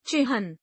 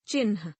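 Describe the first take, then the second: First: चिन्ह said as "chihn" with h before n; correct reading. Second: चिन्ह said as "chinh" with n before h; misspelled reading. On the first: Teacher reads the correct form चिन्ह. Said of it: "शुद्ध वर्तनी". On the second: Teacher reads the misspelled form चिन्ह. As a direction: read चिन्ह the wrong way, "chinh". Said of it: "अशुद्ध वर्तनी". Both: Shown as a demonstration.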